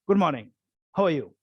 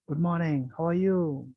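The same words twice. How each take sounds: First: The greeting sounds harsh and curt. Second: The greeting sounds gentle and warm. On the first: The listener feels a little hurt. The speaker calls it wrong. "the other person feels a little hurt" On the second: The listener feels at peace. The speaker calls it right. "your tone of your greetings become more gentle"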